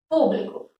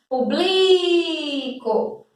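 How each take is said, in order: First: The stress is on the first syllable. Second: The stress is on the second syllable. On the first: It is the noun 'public'. "a terceira de trás para frente" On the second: It is the verb 'I publish'. "A sílaba tônica seria ubli"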